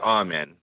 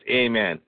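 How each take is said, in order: First: The first vowel is an open 'ah' sound. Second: The first vowel is a long 'ay' sound. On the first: "Scorby always pronounces it" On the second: "with the line above the A"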